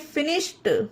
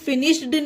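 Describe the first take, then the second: First: The word ends with a t sound. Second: The word ends with a d sound. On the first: The speaker calls it right. "इसे पढ़ेंगे फिनिश्ड" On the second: The speaker calls it wrong. "इसे फिनिश्ड नहीं पढ़ेंगे guys"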